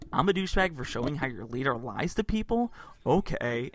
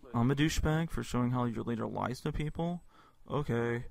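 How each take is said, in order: First: It is read in a normal, engaged way. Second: It is read in a disinterested, dumb-sounding way.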